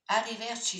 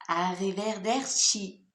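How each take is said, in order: First: Arrivederci blurred as alevɛrchi, middle syllable dropped; quick Arrivederci with the de swallowed. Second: Arrivederci slow and loud, a-ri-ve-der-ci each syllable clear; slow, emphatic Arrivederci with the de restored; every syllable said. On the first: Real, not acted. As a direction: rush Arrivederci so the de gets eaten. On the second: Shown as a demonstration. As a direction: spell out Arrivederci carefully, every syllable sounded. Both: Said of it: "j'ai encore avalé une syllabe".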